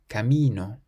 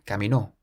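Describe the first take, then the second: First: The stress is on the middle syllable. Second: The stress is on the final syllable. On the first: A path or a road. "we stress the syllable before last" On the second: He walked. "if we place an accent on the O"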